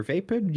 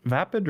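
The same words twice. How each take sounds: First: "vapid" said as VAY-pid; "vapid" rhyming its first syllable with day; long-A pronunciation. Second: "vapid" said as VAP-id; "vapid" with a short first vowel, not like vape; short-A pronunciation. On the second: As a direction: say "vapid" with the A of cat. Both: Shown as a demonstration. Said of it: "how do you pronounce vapid".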